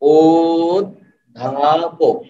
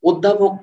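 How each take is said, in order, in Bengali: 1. শব্দটি ধীরে ধীরে, এক একটি অক্ষর করে বলা হচ্ছে। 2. শব্দটি এক নিঃশ্বাসে দ্রুত বলা হচ্ছে। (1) "আস্তে আস্তে উচ্চারণ করেন" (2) "এভাবে না"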